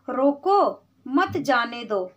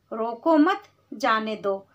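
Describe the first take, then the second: First: रोको said alone with falling pitch, pause, then मत जाने दो; pause after रोको. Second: रोको मत run together, pause, then जाने दो; pause after मत. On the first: Teacher showing children the comma, pause after रोको. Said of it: "सिर्फ एक छोटे से कॉमा की वजह से". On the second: Teacher contrasting comma places, pause after मत. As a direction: join मत onto रोको, break before जाने दो. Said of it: "रोको मत के बाद अगर हम comma". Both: Shown as a demonstration.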